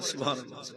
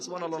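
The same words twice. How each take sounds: First: It is said slowly and calmly. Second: It is said fast and forcefully.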